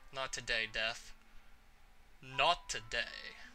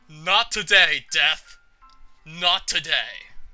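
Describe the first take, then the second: First: It is said in the speaker's own voice. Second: It is said in a Richter impression voice.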